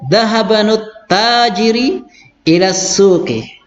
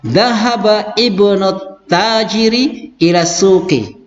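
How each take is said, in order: First: The words run together, dropping the hamza. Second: Each word is said separately with the hamza. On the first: "Saya baca langsung" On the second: "saya baca satu-satu ya"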